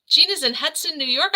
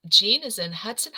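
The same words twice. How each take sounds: First: Gasp, then higher and louder with delight; thrilled by the news, real delight; excited gasp. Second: Said in the usual way. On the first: Real, not acted. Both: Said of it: "I'm so excited".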